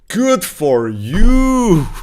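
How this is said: It is said in an intense, angry tone. The speaker is openly hostile.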